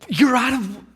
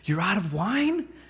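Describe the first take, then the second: First: It is said loudly, in surprise. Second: It is said quietly, in a hush.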